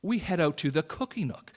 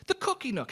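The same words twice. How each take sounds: First: Said in the usual way. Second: Gleeful high squeal. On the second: Retold or imitated. Excited about the dessert shop.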